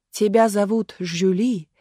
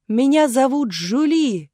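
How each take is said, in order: First: Slow, measured declamation; stage questioning. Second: High, loud, slow stage declamation; full-force child's cry. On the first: Marat echoing the girl before the crowd, solemnly declaiming. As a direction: repeat it slowly, with mild theatrical weight. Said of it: "вопросил Марат". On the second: Little actress introducing herself to Marat, crying out. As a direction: call it out slowly to the whole hall. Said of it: "что есть силы крикнула Галя". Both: A narrator's reading.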